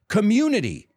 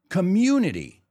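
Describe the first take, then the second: First: The u is said as a yoo sound. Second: The u is said as a yoo sound.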